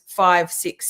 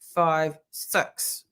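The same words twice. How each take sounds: First: It is said in a plain Australian accent. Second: It is said in a New Zealand accent. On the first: "If something's" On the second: "they go"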